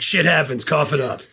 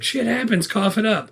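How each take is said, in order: First: Matter-of-fact quoted retort near own pitch; lightly voiced, dismissive demand for payment; guerrilla's retort. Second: Higher-pitched imitation of a cocky kid; kid's retort. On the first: Guerrilla demands the Monopoly money, matter-of-fact retort. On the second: Kid demands money from a guerrilla, high mock retort. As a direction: throw it back in a higher voice. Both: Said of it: "the kid says the same thing".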